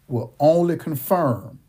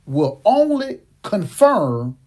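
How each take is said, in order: First: Said in the usual way. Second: Only dragged out, slow and louder; stress on ONLY. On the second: Acted. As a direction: lean hard on "only", slowly. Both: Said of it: "I'm gonna say that again".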